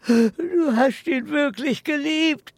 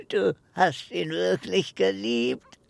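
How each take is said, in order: First: Higher, louder anguished cry; distraught outburst. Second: Said in the usual way. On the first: Acted. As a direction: cry it out in disbelief. Old man's distraught outburst.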